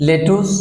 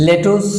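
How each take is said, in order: No difference in how they are said.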